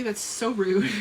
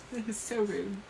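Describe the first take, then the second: First: Said in the usual way. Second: Softer, laughing at herself. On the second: Real, not acted. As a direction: giggle through it. Repeats apology laughing.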